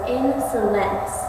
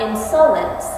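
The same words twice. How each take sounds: First: The first and last syllables are stressed. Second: The first syllable is not stressed. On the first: The speaker calls it right. "you accent the first and last syllables. It goes insolence" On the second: The speaker calls it wrong. "not insolence"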